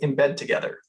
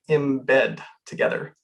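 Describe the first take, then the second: First: It is said at a normal pace. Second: It is said more slowly.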